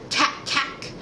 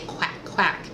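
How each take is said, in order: First: The word starts with a plain k sound. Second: The word starts with a smooth kw sound. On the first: The speaker calls it wrong. "she would go" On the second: The speaker calls it right. "You need to say"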